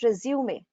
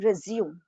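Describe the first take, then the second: First: It is said with the French pronunciation. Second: It is said with the English pronunciation. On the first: "that is the French pronunciation" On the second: "That is the correct pronunciation in English language"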